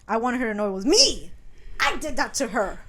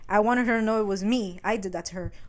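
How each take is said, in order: First: It is said with loud, exclamatory emphasis. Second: It is said flatly, without exclamatory emphasis.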